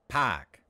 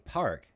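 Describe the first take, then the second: First: The r is dropped into a long ah. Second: The r sound before the k is pronounced. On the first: "He said park. ... the r becomes ah" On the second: "He didn't say park"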